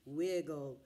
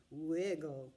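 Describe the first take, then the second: No difference in how they are said.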